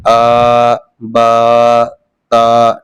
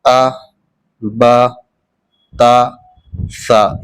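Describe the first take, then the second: First: आ, बा, ता each held out long; long level drone on "आ, बा, ता"; wrongly stretched vowels. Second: आ, बा, ता, सा each said short, one at a time; short vowels. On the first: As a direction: drag out the vowel in "आ", "बा" and "ता". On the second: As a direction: keep "आ, बा, ता, सा" quick, without stretching. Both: Shown as a demonstration. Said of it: "इसको हम ऐसे नहीं पढ़ेंगे".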